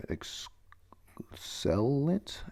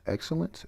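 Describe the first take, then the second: First: Drawn-out, near-whispered attempt at "excellent"; sounding out. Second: Said in the usual way. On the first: Real, not acted. Reader stumbling over a word in the note, sounding out. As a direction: slowly feel your way through "excellent".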